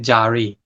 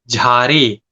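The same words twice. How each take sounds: First: The first consonant has no breathy puff. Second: The first consonant has a breathy puff.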